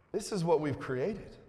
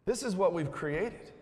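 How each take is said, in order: Both takes have the same delivery.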